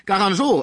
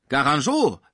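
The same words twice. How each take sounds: First: Garangeau shouted much higher and louder; furious shout. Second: Louder, sharp outburst at the rival's name; angry cry. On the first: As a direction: explode on the name Garangeau. (Garangeau, viel höher und lauter geschrien) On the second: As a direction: spit the name Garangeau out in anger. (Pons ruft den Namen wütend) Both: A narrator's reading. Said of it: "rief Pons wütend".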